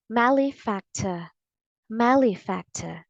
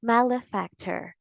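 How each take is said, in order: First: Malefactor with the final R dropped; British pronunciation. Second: Malefactor with the R sounded at the end; clear final R. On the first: Teacher shows what you say in British English, British pronunciation. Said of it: "if you want the British English pronunciation". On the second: Teacher shows the preferred American English, clear final R. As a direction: say malefactor American style, ending in "ter". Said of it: "R sound at the end is clear". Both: Shown as a demonstration.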